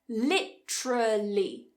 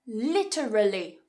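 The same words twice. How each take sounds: First: It is said with three syllables. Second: It is said with four syllables. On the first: "If we cut one" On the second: "four syllables"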